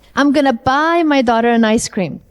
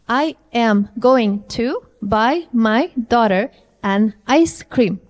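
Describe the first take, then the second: First: The words are reduced and linked together. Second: Each word is said separately and fully.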